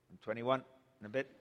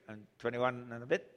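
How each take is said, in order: Both takes have the same delivery.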